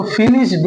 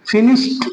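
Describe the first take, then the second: First: फिनिश्ड with a voiced D ending; wrong pronunciation. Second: फिनिश्ड ending in a T, pitched higher; correct pronunciation. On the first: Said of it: "नहीं बोलेंगे". (गलत उच्चारण, फिनिश्ड के अंत में 'ड') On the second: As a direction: lift फिनिश्ड and close it on T. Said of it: "बल्कि हम बोलेंगे". (सही उच्चारण, फिनिश्ड के अंत में 'ट') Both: Shown as a demonstration.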